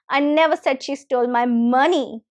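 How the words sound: The word "money" carries the main stress. Something other than money was stolen. "if I stress the word money"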